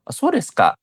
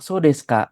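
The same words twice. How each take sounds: First: The voice rises at the end, sounding surprised. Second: The voice falls at the end, sounding regretful.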